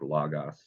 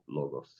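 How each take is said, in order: First: The first vowel is an open 'ah' sound. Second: The first vowel is a long 'oh' sound. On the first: The speaker calls it wrong. "Cotter would say this is an ah, like logos" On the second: The speaker calls it right. "I say it's an O"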